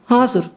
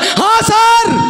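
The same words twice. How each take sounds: First: It is said quietly with low energy. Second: It is shouted very loudly. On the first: The caller sounds weak and hard to hear. "अरे जोर से बोलना" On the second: The caller is overdoing it and hurts the listener's ear. "इतना भी ना चिल्लाएं"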